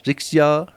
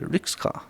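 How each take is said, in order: First: The word is attempted with an English pronunciation. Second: The word is said with a Spanish pronunciation. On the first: "I don't know how how to pronounce it properly" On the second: "Probably in Spanish I would say rickshaw"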